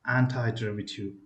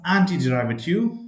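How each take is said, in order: First: "antiderivative" with anti rhyming with tie. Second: "antiderivative" with anti ending in an ee sound; "anti" as an-tee. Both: Shown as a demonstration. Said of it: "It is also pronounced as".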